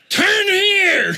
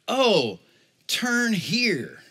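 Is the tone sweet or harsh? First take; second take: harsh; sweet. First: It is said sharply and harshly. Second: It is said sweetly and gently.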